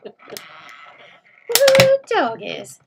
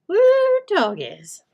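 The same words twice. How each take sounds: First: Texas yeehaw, much higher and louder with a laugh; loud Texas whoop. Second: A light playful Texas twang; mock Texas drawl. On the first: Retold or imitated. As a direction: whoop it like a rowdy Texan, laughing. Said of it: "Do you say that, Corinne?". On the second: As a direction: tease it like a Texan, lightly. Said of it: "Do you say".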